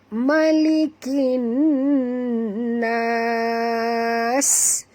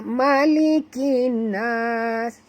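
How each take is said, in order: First: The final s is clearly pronounced. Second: The final s is barely heard. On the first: The speaker calls it right. "macam tu juga" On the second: The speaker calls it wrong. "Tak dengar pun sin"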